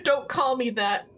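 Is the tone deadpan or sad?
sad. It is said in a sad, hurt tone.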